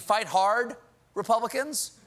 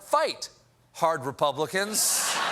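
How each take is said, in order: First: There is a pause before the last word. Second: There is no pause before the last word. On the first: Republicans are being told to fight hard. "does it mean fight hard, Republicans" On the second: Only hardline Republicans are being told to fight. "or fight hard Republicans? Because there's a big difference"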